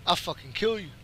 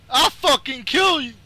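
First: Said in the usual way. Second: High, heated yell; yelled threat. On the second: Real, not acted. Gamer threatening his online opponent, yelled threat. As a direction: burst out with the threat.

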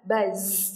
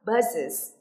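First: "buzz" with the z held on, one syllable; impossible plural. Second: "buzzes" in two syllables, ending in -iz; correct plural. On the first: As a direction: run the plural straight into the buzzing z of "buzz". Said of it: "không thể nào nói được là". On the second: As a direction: add a clear second syllable to "buzzes". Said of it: "để chúng ta đọc được là". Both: Shown as a demonstration.

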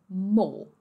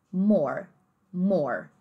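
First: More as "maw", no final R; British dropped R. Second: More with a strong curled final R; drawn-out American R closing more. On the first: Teacher isolating the word more, British pronunciation. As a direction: swallow the R of more British-style. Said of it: "eles simplesmente comem o R e o E". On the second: Teacher isolating the word more, American R. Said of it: "Então, bem ra". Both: Shown as a demonstration.

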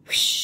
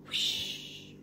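First: A bright, loud rocket whoosh; storyteller's playful rocket sound. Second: A soft, breathy whispered whoosh; hushed storyteller whoosh. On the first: Rocket launch sound effect. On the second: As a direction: whisper the rocket sound away. Whispered rocket sound. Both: Pretend.

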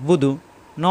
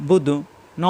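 Both takes have the same delivery.

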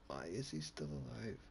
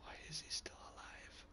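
First: Said in the usual way. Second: Breathless whispered question; whispering. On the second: Real, not acted. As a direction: whisper it in disbelief. Unvoiced whisper.

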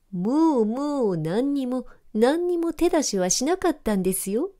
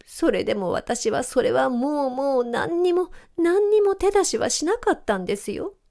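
First: Dog parroting the cat's words to mock it; mocking mimicry. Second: High, whining plea of innocence; cat whimpering its innocence; whiny sobbing cat. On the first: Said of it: "と口真似をすると". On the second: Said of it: "しゃくり上げながら". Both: A narrator's reading.

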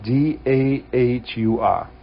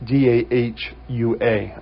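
First: Slow New England accent, A spelled as R; letters spelled with a New England intrusive r. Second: Said in the usual way. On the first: Real, not acted. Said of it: "my New England accent is, uh, is coming out". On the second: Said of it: "I'm sorry".

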